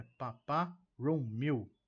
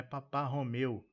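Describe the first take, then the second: First: "Papá Romeu" as pa-PA ROU-miu; slow, loud "Papá Romeu", ending in MIU; special pronunciation. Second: "Papá Romeu" with ho-MEU; everyday Portuguese way. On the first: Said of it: "é Papá Romeu". ("Papá Romeu" com ROU-MIU, devagar) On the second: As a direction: say "Romeu" as the usual name after "Papá". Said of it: "Não é Papá Romeu". ("Papá Romeu" com ho-MEU comum) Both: Shown as a demonstration.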